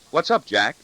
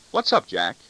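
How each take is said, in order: First: The same words echoed back, a touch higher and louder; mild mimicking ridicule; mocking echo. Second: Said in the usual way. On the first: A narrator's reading. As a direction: parrot his line back to mock him. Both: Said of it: "I expect to hear him reply to me in my own voice".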